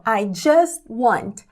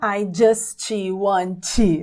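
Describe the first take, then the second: First: The word ends on a weak t, no vowel. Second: An extra vowel sound follows the final t. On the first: The speaker calls it right. "Então, I just want" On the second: The speaker calls it wrong. "Não prolongue aí esse som I final"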